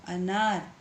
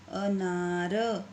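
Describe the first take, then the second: First: Said in the usual way. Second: अनार drawn out slowly, syllable by syllable; slow careful. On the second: Shown as a demonstration. Teacher to pupils, sounding out अनार very slowly. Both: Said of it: "तो क्या बन जाएगा".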